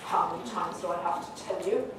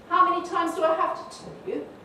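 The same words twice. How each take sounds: First: It sounds fully exasperated and final. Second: It sounds mildly cross, like a warning. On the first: It has been said many times and always ignored. "it's obviously the end of the road" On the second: This is a warning, and things can still be put right. "you get the warning, you get the message that mum's cross"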